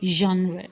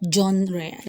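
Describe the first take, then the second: First: The g is said as zh. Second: The g is not said as zh. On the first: "but I prefer genre" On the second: "although you can still say genre"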